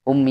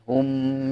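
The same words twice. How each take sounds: First: The final m is rushed and barely closed. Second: The lips close fully on a clear final m. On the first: The speaker calls it wrong. "jangan hum ya kulu" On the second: The speaker calls it right. "Harus hum ya"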